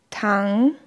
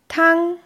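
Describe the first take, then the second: First: The pitch dips low, then rises again. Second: The pitch stays high and level. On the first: It means to lie down. "sinkt die Tonhöhe aus dem mittleren Niveau nach unten und steigt in der Regel wieder" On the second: It means soup. "Der erste Ton wird gleichbleibend hochgesprochen"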